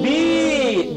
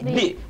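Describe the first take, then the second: First: The vowel after b is long. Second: The vowel after b is short. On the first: "whenever you add a al ya sakin with ba zer" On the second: "This one is not going to be long"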